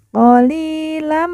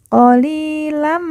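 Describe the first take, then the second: The two takes are said the same way.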